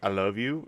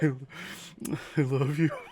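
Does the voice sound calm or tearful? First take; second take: calm; tearful. First: It is said calmly, without crying. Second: It is said tearfully, as if crying.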